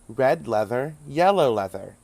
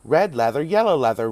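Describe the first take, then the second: First: The phrase is said at a slower pace. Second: The phrase is said at a faster pace.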